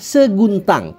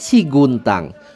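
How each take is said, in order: First: The first syllable is pronounced with 'se'. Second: The first syllable is pronounced with 'si'. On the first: The speaker calls it right. "Padahal yang benar adalah Seguntang, se" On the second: The speaker calls it wrong. "Wong Palembang kebiasaan nyebut Bukit Siguntang"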